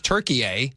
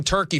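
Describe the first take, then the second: First: "Turkey, eh" as Tur-kee-ay, rising at the end; "Turkey, eh" said as Türkiye; English commentator's pronunciation. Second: Said in the usual way. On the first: Retold or imitated. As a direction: quote "Turkey, eh" with the added "ay". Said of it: "English commentator comes on and says". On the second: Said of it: "If you call something Turkey".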